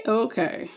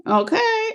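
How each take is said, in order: First: Said in the usual way. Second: Okay lifted high and light; high sing-song okay. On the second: Real, not acted. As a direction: sing it up high like a cheerful hello. Settling in before the livestream.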